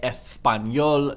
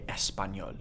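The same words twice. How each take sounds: First: The s is pronounced as a th sound. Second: The s is pronounced as an s sound. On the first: The speaker calls it wrong. "you definitely would not say español" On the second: The speaker calls it right. "you'd say español"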